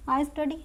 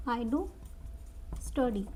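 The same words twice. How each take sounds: First: Said in the usual way. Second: "do" said with extra force before "study"; emphatic do. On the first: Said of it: "यही बोलते हो". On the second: Shown as a demonstration. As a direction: stress on "do" in "I do study", do given firm weight. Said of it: "ज़ोर देके बोलते".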